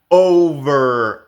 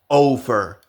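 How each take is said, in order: First: The middle consonant is a buzzing, voiced v. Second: The middle consonant sounds like an unvoiced f. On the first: The speaker calls it right. "decimos over; la V tiene vibración" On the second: The speaker calls it wrong. "pueden confundirla con F, No decimos over"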